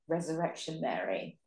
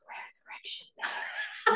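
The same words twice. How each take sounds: First: It is said in a normal voice. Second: It is said in a whisper.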